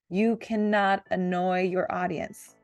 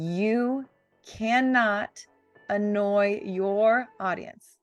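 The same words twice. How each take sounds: First: It is said plainly, without extra emphasis. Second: It is said with strong, forceful emphasis.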